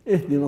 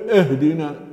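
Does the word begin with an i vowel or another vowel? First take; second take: i vowel; another vowel. First: The first vowel is an i sound. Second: The first vowel is not an i sound. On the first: The speaker calls it right. "تنطق في أول الكلمة مكسورة" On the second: The speaker calls it wrong. "من الخطأ أن نسمع نقول اهدنا"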